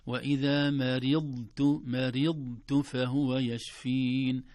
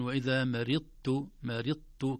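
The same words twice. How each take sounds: First: "مرضت" slow and loud, full held ض and only then ت; dad before ta. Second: "مرضت" with ض swallowed into a doubled ت; wrongly merged dad. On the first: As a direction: give "مرضت" a complete ض before releasing the ت. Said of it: "زمن الضاد أولًا ثم التاء". («مرضت» بزمن الضاد أولًا ثم التاء) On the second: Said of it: "لا أقول". («مرضت» بإدغام الضاد في التاء خطأً) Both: Shown as a demonstration.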